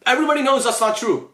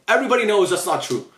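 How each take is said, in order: First: Pitched up and pressed harder; exasperated insistence; emphatic repeat. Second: Said in the usual way. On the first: Real, not acted. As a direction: drive the repeat home.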